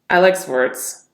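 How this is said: The voice sounds disgusted and off-putting. "Disgust. Off-putting tonality"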